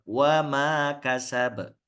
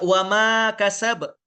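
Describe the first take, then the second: First: The vowel is held long. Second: The vowel is cut short. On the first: The speaker calls it right. "Harusnya kan wama kasab" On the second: The speaker calls it wrong. "dibaca dengan pendek"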